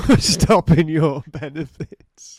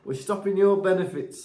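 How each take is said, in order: First: Slow and much louder; mock official repeat. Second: Lightly voiced stern official; mock official. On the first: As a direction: boom it like a stern official. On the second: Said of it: "It'll be like".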